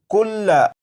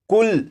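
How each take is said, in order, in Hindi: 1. शब्द का अंत एक छोटे अंतिम स्वर पर होता है। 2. शब्द का अंत व्यंजन पर होता है, स्वर छोड़ दिया जाता है। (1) "ये लफ्ज़ लिखा है" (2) "जब इस लफ्ज़ को वक्फ में पढ़ेंगे ... ज़बर को नहीं पढ़ेंगे"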